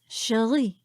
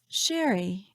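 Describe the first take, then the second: First: The stress is on the second syllable. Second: The stress is on the first syllable. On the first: "with a rolling R and an emphasis on the second syllable" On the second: "repeating myself slowly three times"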